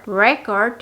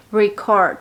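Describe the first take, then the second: First: Record stressed on RE, noun REcord; Record with the weight on the first syllable. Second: Record stressed on CORD, verb reCORD; record with the weight on the second syllable; last-syllable stress. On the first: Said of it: "haciendo énfasis en la primera sílaba". (Record con énfasis en la primera sílaba) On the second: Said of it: "haciendo énfasis en la última sílaba". (record con énfasis en la última sílaba) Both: Shown as a demonstration.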